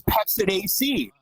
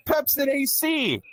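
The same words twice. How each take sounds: First: Said in the usual way. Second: "Pepsid A C" high and drawn out; indignant repeat. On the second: Real, not acted. Comic repeating the baggie punchline, "Pepsid A C" stretched indignantly.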